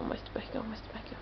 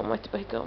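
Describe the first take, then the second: First: Mostra o barrigão fading to a whisper. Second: Said in the usual way. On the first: Real, not acted. Mother repeating to baby.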